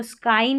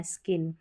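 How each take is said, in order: First: स्काइन with an eye vowel; wrong vowel. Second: स्किन with a short i; correct vowel. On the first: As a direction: say स्काइन to rhyme with line. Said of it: "स्काइन नहीं पढ़ना". (गलत उच्चारण: स्काइन, आइ के साथ) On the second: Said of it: "फिर ये स्किन है". (सही उच्चारण: स्किन, छोटी इ के साथ) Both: Shown as a demonstration.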